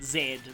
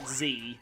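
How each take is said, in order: First: The letter is said as British zed. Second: The letter is said as American zee.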